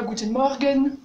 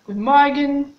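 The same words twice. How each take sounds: First: Guten Morgen with a rolled French R; mock French way of saying Guten Morgen; French-accented German. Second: Guten Morgen with the R nearly an A; German Morgen. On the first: Teacher showing the wrong, very French Guten Morgen. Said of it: "Très français". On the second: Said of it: "il est presque comme un A". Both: Shown as a demonstration.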